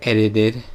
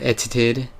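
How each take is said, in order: First: The middle t is pronounced soft, not crisp. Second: The middle t is pronounced hard and crisp. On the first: "I usually say edited" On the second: "Some people might pronounce the T pretty hard"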